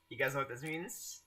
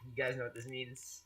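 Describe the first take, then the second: First: "You guys know what this means?" softly, rising on MEANS; rising question. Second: Said in the usual way. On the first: Real, not acted. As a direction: ask it softly, lifting "means" at the end. Repeats line, now as a question.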